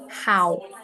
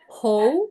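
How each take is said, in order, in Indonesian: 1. Vokal itu dimulai dengan bunyi 'ah' yang terbuka. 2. Vokal itu tidak dimulai dengan bunyi 'ah'. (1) "tapi how. A suaranya how" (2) "Bukan how"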